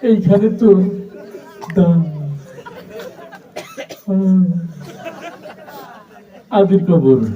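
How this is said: The line is recited with a stutter. The reciter struggles to get words out. "একটা তোতলা ছেলে আসছে"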